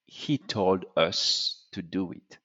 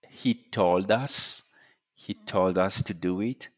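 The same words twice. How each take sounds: First: US with a rounded French "eu" vowel, like "eus"; French-learner vowel on US; slightly French-sounding US, vowel closed and rounded; French speaker mispronunciation. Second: US with an open English vowel; correct English "us". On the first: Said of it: "So a French speaker will say". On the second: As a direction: US said the English way, unrounded. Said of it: "and us is us". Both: Shown as a demonstration.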